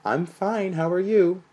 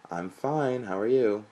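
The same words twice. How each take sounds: First: Much higher, louder sing-song mimic; mock his high singing greeting; sing-song imitation. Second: Mewing, higher and louder; higher pitched. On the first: Mother imitating her son's phone greeting, sing-song. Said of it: "It sounds like you're singing". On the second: A narrator's reading. Son answering his mother, higher-pitched. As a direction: pitch it up and sing it. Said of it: "He mewed back in a higher pitched tone".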